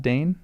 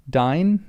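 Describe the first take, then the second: First: Dane, rhyming with rain; one syllable, Dane with a long A; DANE pronunciation. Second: Dine, rhyming with mine; DINE pronunciation. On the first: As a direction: say Dane like "main" with a D. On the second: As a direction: say the vowel in Dine like "eye". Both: Shown as a demonstration. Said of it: "not Dane".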